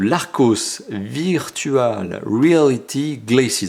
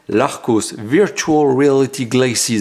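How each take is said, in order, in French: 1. Le nom est prononcé avec un accent français. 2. Le nom est prononcé avec un accent anglais.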